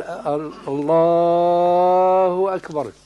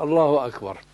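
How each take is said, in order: First: Slow, stretched الله أكبر with long vowels; الله أكبر stretched slowly; drawn-out takbir. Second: الله أكبر snatched short and brisk; quick clipped takbir. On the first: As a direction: drag out الله أكبر as the wrong example. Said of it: "فلا يمد، لا يقال". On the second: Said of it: "وإنما". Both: Shown as a demonstration.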